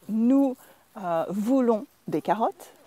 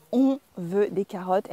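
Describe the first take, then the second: First: Careful "Nous voulons", halting after "Nous"; formal French "Nous voulons des carottes", ending on a rise; textbook nous form. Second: "On veut des carottes" in one connected run; everyday French, "On veut" replacing nous; spoken on form. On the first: French teacher gives the form to avoid, careful textbook nous. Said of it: "Instead of saying". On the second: French teacher shows what natives say, casual on form. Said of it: "we say". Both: Shown as a demonstration.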